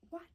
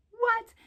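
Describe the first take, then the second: First: Short understated "what"; low-key disbelief. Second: High, loud "What?"; incredulous outburst. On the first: Storyteller reacting to sounds from outside, low-key disbelief. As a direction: let it slip out quietly. Retold reaction, first take. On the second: Storyteller reacting to sounds from outside, incredulous outburst. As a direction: jump up in pitch and volume. Retold reaction, repeated in disbelief. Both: Retold or imitated.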